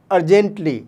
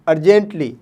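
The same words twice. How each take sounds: The two takes are said the same way.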